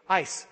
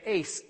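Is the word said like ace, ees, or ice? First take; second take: ice; ace. First: The word rhymes with nice. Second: The word rhymes with face. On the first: "it says to pronounce it like the word ice" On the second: "Some people say ace"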